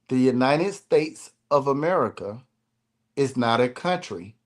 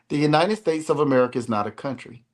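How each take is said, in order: First: It is spoken at a slow pace. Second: It is spoken at a normal pace.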